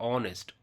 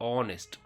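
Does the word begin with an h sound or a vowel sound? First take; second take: vowel; vowel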